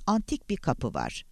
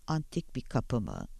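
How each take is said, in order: First: Said in the usual way. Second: Softer, understated disbelief; doubtful echo question. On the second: A narrator's reading. Langdon questions the caller's claim about a door, quietly doubtful. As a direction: query it back quietly.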